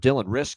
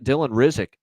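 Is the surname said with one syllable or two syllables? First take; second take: one syllable; two syllables. First: The surname is said with one syllable. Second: The surname is said with two syllables. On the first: The speaker calls it right. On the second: The speaker calls it wrong.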